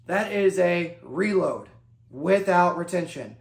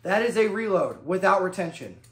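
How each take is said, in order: First: Slow and deliberate, leaning on reload; stress on reload. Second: Said in the usual way. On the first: Shown as a demonstration. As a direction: spell it out slowly so they repeat reload. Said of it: "Emphasis on reload". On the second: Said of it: "Say it with me".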